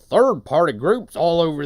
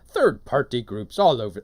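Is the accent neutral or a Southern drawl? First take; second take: Southern drawl; neutral. First: It is read in a put-on Southern drawl. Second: It is read in a neutral accent.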